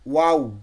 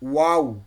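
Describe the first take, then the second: The two takes are said the same way.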